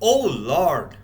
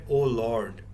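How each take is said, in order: First: It is said expressively, with more vocal variety. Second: It is said flatly, with little vocal variety. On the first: The speaker calls it right. "you could have said" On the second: The speaker calls it wrong. "when you said"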